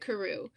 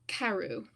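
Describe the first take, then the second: First: The name is said the American way. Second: The name is said the British way. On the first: This is the author's own pronunciation. "I pronounce it Carew" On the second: This is how some people in England say it. "some people in England especially say Carew"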